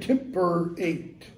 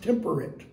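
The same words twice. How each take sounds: First: The last syllable is full and rhymes with date. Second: The last syllable is reduced and does not rhyme with date. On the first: This is how it was said in Shakespeare's day. "In Shakespeare's day, both those words rhymed. They would have both been temperate" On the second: This is the modern pronunciation. "modern English, that's pronounced temperate"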